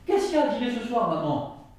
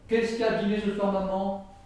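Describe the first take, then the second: First: Maman is attached to the question as a tag. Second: The whole sentence is said on one flat pitch. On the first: The mother is being asked about dinner. "Premier, ... Tout le monde comprend" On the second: It has no clear meaning. "il n'y a aucune intonation"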